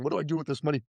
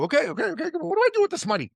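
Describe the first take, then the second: First: Said in the usual way. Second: Much higher, bewildered borrower voice; classic Iranian. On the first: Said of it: "This is a classic Iranian". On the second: Retold or imitated. Son imitating a typical Iranian borrower to Heather, much higher. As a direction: go up high as the flustered borrower. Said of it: "Iranians are like this".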